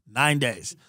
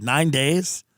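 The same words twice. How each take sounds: First: "Nine days." falling, matter-of-fact; flat confirmation. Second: Rising, disbelieving question on "Nine days?"; incredulous echo. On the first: The spider seller confirming to the buyer, deadpan. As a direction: state "Nine days." flatly, settled. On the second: Echoing the spider seller's answer, mildly stunned. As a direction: echo "Nine days?" back, not believing it. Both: Retold or imitated.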